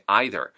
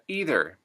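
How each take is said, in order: First: It is said in a Canadian accent. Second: It is said in an American accent. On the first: "Canadian English" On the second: "U S English"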